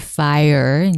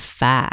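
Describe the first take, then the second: First: Fire is said with a standard accent. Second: Fire is said with a Southern accent.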